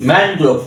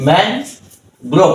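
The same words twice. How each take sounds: First: Said in the usual way. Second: man and grow as two beats with a pause between; two-part teaching demo of man grow; split into syllables. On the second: Shown as a demonstration. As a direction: say man, then grow, each on its own. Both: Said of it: "দুই সিলেবলে ভাগ করেছি".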